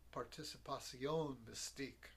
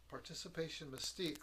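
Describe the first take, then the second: First: It is pronounced the French way. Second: It is pronounced the English way.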